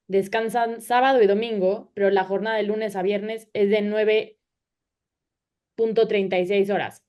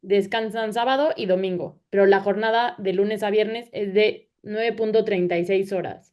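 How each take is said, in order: Both takes have the same delivery.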